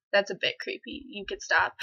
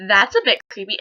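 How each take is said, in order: First: Understated retort. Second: Louder retort, voiced aloud. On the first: Retold or imitated. Girl repeats her rebuff to the classmate, understated and softer. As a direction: put him off under a light laugh. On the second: Girl replays telling the classmate off, out loud. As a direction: call him out, audibly. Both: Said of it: "I said it out loud".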